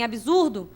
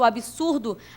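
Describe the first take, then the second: First: The middle consonant sounds like a z. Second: The middle consonant sounds like an s. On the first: The speaker calls it wrong. "A gente não deve falar subsídio, nem absurdo" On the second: The speaker calls it right. "com som de S, igual absoluto, absurdo"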